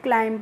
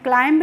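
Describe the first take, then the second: First: The word ends in m, with no b. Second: The word ends with an audible b sound. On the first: The speaker calls it right. "क्लाइम पढ़ते हैं" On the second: The speaker calls it wrong. "क्लाइंब नहीं पढ़ते हैं"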